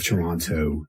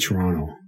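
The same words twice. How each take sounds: First: It is said in the standard, non-local way. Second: It is said in the local Toronto way. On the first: This is how outsiders say it. "instead of Toronto" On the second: This is how locals say it. "We we say Toronto"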